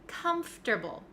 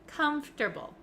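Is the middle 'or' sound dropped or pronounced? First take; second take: dropped; dropped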